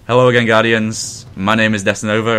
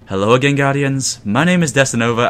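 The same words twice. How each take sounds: First: The voice is lower, natural pitch. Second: The voice is higher pitched and smoothed.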